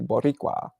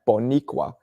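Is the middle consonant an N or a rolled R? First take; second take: rolled R; N. First: The middle consonant is a rolled R. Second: The middle consonant is an N sound. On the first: The speaker calls it right. "I know how to roll my R's" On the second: The speaker calls it wrong. "we would always pronounce it Bo with an N"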